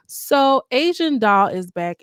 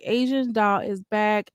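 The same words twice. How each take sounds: First: Hyped announcement. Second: Said in the usual way. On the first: Shown as a demonstration. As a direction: announce her return with a big slow build.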